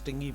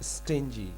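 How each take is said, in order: First: The middle consonant is a hard g sound. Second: The middle consonant is a soft j sound. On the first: The speaker calls it wrong. "मैंने स्टंग स्टिंगी स्टिंगी स्टिंगी पढ़ाया" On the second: The speaker calls it right. "जे की आवाज आ रही"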